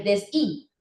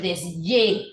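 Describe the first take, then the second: First: Desí as des-i, pure vowel; desí as if the H were mute; silent-H version. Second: Desye slowly with a clear Y consonant; Y sound. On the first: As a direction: say desí with no Y sound. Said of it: "usted no dice el desí". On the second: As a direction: say desye as des-YE. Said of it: "sino el desye". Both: Shown as a demonstration.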